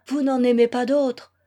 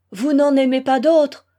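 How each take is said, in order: First: Said in the usual way. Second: Louder, exasperated repeat of the question. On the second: A narrator's reading. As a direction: demand it, voice raised in exasperation. (exaspéré, voix forte) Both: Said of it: "répéta Alexis exaspéré".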